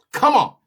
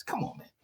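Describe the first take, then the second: First: Higher and louder, fed up; exasperated outburst. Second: Exasperated whisper under the breath; a breathed-out come on, man; whispered frustration. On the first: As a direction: burst out in real exasperation. Frustrated outburst after whisper. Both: Real, not acted.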